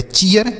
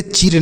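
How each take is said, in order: First: चीयर in two syllables, "chee-yur"; correct ee-ye pronunciation. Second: चीर as one syllable with a long "ee", "cheer"; wrong pronunciation. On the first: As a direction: say चीयर with a "y" glide before the r. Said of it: "इसका उच्चारण double E का". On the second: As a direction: say चीर without any "y" glide before the r. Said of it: "यह गलत उच्चारण होगा". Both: Shown as a demonstration.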